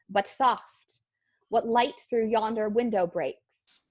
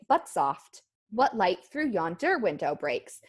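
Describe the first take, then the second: First: Each pair is stressed on its second syllable. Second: Each pair is stressed on its first syllable. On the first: The speaker calls it right. "an unstressed syllable followed by a stressed syllable" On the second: The speaker calls it wrong. "We don't say"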